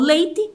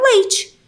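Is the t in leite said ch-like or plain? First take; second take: plain; ch-like. First: The t is a plain, hard t sound. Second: The t sounds like ch before the vowel. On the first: "às vezes eu falo leite" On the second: "às vezes me sai um leite"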